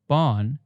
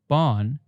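First: The vowel is only weakly nasal, with an N. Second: The vowel is only weakly nasal, with an N.

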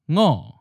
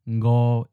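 First: The word is said in the second tone. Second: The word is said in the seventh tone. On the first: This is the literary reading of five. "in the literary pronunciation, we have a second tone" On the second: This is the everyday spoken reading of five. "with the colloquial pronunciation ngo is in a seventh tone"

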